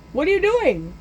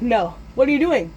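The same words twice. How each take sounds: First: High-pitched panicky question; panicked protest. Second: Alarmed protest. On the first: Boy watching Grinch spread lighter fluid, high panicked protest. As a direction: cry it out high, in mock alarm. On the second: Boy protests lighter fluid. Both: Retold or imitated.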